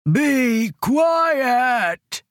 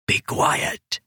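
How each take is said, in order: First: High, drawn-out giant's roar. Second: Hushed, unvoiced-breath whisper of a giant. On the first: Giant to the crying captives in his cave, roaring. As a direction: roar it out, stretching the last word. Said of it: "he roared". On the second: Weeping giant to crying captives in his cave, whispering. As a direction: whisper it as a warning. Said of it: "he whispered". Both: A narrator's reading.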